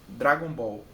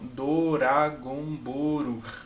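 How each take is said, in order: First: It is said the plain English way. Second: It is said with added Japanese-style vowels.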